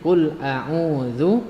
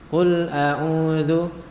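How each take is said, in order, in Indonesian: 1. Vokal u terakhir dibulatkan penuh. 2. Vokal u terakhir dibulatkan lemah. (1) "Yang benarnya adalah dimonyongkan seperti tadi" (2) "kurang memonyongkan bibir sehingga kelihatannya seperti ini"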